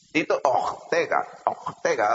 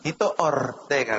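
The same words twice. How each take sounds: First: "Ortega" with a guttural Israeli R, drawn out; imitated Israeli R. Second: "Ortega" with a trilled Spanish R, slowly; rolled R. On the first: Israelis attempt the preacher's name, guttural R in "Ortega". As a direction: slowly say "Ortega" with the R in the throat. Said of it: "hacen ellos". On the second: Shown as a demonstration. Preacher shows colleagues his name, rolled R in "Ortega". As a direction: roll the R clearly in "Ortega". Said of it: "I roll my R's fine".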